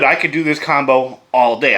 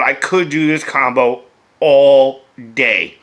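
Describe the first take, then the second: First: Said in the usual way. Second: "could" punched loud, "all day" drawn out slowly; stress on COULD. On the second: Real, not acted. Beer reviewer admits he won't but insists he could, stress on "could". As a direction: lean hard on "could", then stretch "all day".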